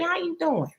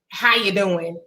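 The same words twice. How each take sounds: First: It is said warmly, with caring interest. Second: It is said flatly, without warmth. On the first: The asker genuinely cares how you are. The speaker calls it right. "y'all see how I said that?" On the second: The asker does not really care. The speaker calls it wrong. "I'm not talking about that bland tuna fish"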